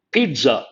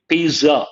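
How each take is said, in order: First: Pizza with a ts sound, peetsa; correct Italian pizza. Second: Pizza said with a plain z sound, peeza; wrong pizza. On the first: Teacher shows students the right way: Pizza as peetsa. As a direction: put the T in: Pizza as peet-sa. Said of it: "T sound should be there". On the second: Teacher shows students the wrong way: pizza with a z. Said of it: "That is not correct". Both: Shown as a demonstration.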